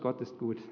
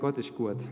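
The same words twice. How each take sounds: First: It is spoken in standard German. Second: It is spoken in a Swabian dialect. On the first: "Das heißt auf Deutsch" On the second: "Könnt ihr eigentlich Schwäbisch? Mein Vater hat immer gesagt"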